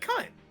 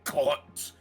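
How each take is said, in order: First: The word is said in a friendly tone. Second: The word is said in an angry tone. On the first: The speaker is being affectionate to the listener. "when you're friendly with someone" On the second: The speaker is insulting the listener. "when you're angry at someone"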